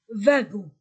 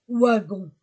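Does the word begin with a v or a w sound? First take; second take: v; w. First: The word begins with a v sound. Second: The word begins with a w sound. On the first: The speaker calls it right. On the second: The speaker calls it wrong. "non pas wagon"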